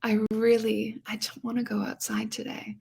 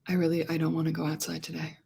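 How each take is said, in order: First: It is light and open, with a sigh. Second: It is dark, from the back of the voice.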